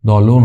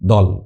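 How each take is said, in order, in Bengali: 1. শব্দটি ও-স্বরধ্বনি দিয়ে শেষ হয়। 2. শব্দটি ব্যঞ্জনধ্বনি দিয়ে শেষ হয়। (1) "দলও না" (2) "না দল ঠিক আছে"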